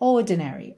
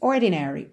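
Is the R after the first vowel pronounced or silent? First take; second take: silent; pronounced. First: The R is silent and the first vowel lengthened. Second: The R after the first vowel is clearly pronounced. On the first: "o R não vai ter o som do R enrolado, vai ser um alongamento dessa letra O" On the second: "Num sotaque mais pro americano, nós teríamos"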